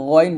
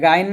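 First: গইন said thick and full from the throat; the correct গইন, heavy; heavy ghain. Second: গাইন said thin with an open aa; the mistaken গাইন, light and open; wrong thin ghain. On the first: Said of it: "বলতে হবে গইন মোটা করে". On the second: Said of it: "এটা গাইন বলবেন না". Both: Shown as a demonstration.

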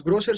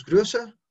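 First: GROSSER with a plain round O; pronunciación sin umlaut. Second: GRÖSSER with fronted O-umlaut; pronunciación con umlaut. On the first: ("Grosser" con O normal, sin umlaut) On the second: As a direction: say "Grösser" with rounded lips on the Ö. ("Grösser" con O umlaut) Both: Shown as a demonstration. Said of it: "cambia el O por O umlaut".

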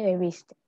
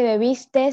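First: Said in the usual way. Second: "bebiste" with an extra final S; bebiste with added S. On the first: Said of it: "se dice". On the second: Shown as a demonstration. Student showing the class the error, "bebiste" with final S added. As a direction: end "bebiste" on a hiss, as bebistes. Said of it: "no se dice".

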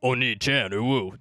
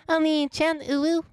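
First: A second put-on take, not pitched up; lightly voiced goofy alternative Oni-chan; other silly voice. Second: Much higher, sugary uwu voice; hammed-up high cutesy Oni-chan; cutesy anime voice. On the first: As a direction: say it in an odd altered voice at normal pitch. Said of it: "Or I'll go like". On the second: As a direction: squeak it like a clingy anime sibling. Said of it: "I say it in a certain voice".

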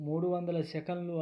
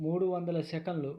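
Both takes have the same delivery.

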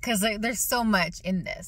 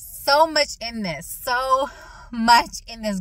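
First: Said in the usual way. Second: Slow and a bit louder, drawn out; slow emphatic. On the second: Shown as a demonstration. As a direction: lean in and slow each word. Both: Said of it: "I'm gonna try to talk slow".

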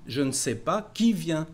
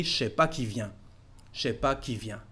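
First: Said in the usual way. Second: "je sais pas" slurred into "chais pas", the ne dropped, a bit softer; easy spoken shortcut, relaxed and quick; fluent casual French. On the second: Shown as a demonstration. Teacher showing the fluent way to say it, relaxed. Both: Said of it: "Or when you speak fluently".

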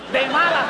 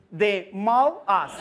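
First: Louder correction. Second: "De mal as" split slowly like English; gringo-style slow "De mal as"; slow phonetics demo. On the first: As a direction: punch out the real word. ("De malas" más fuerte) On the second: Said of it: "simplemente diga". ("De mal as" lento) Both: Shown as a demonstration.

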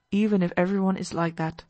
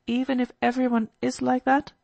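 First: "even" stressed, "that" settled as a statement; affirming. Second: "that" lifted as a question. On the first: Alyosha answers Kolya's doubt, affirming. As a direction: confirm it firmly, leaning on "even". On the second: Kolya doubts Alyosha's advice, questioning. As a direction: ask it, voice rising on "that". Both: Acted.

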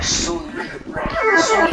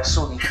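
First: Slow drawn-out British Sully; British accent. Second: Said in the usual way. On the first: Acted. Friend mocks a name in a slow British accent. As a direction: say Sully slowly like a British boy. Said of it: "Yeah, that's British". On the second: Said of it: "That sound like British boy".

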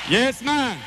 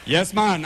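First: Put-on cheery Jamaican-accented agreement. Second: A low, laid-back Jamaican "Yes, man" with "man" falling; relaxed Jamaican-accented agreement. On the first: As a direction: throw out "Yes, man" in a Jamaican accent. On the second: Acted. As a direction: drop into an easy Jamaican lilt on "Yes, man".

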